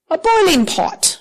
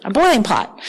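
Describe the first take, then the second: First: Put-on a light British accent on the Bible quote. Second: Said in the usual way. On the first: Reading scripture to the congregation in a mock British accent. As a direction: say it like a British reader, a touch higher. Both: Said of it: "I don't know why I'm talking like a British person".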